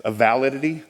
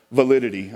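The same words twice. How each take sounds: First: "validity" with the stress put on the wrong syllable. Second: "Validity" said again with the stress on "lid", falling at the end; corrected stress. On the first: Speaker fumbling the word in front of the audience, wrong stress on "validity". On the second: Speaker correcting himself for the audience, "Validity" with stress on "lid". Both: Shown as a demonstration. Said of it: "emphasis on the wrong syllable".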